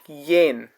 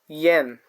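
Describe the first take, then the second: First: The vowel sounds like the 'e' in 'yes'. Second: The vowel sounds like the 'e' in 'yes'.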